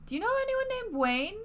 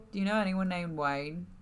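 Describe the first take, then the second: First: Much higher, squeaky question. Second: Said in the usual way. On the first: Acted. Player character asking Tabitha about Wayne in a squeaky voice. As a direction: ask it in a squeaky put-on voice.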